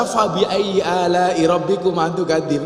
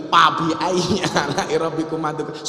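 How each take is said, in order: First: Slow recitation with a clear f in "Fabi"; correct Arabic f. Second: Recitation with "Fabi" said as "Pabi"; Sundanese p for f. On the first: Shown as a demonstration. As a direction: recite "Fabi" with a true f sound. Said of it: "Nggak bisa". ("Fabi" dengan bunyi f yang jelas) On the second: Retold or imitated. ("Fabi" diucapkan "Pabi" ala Sunda)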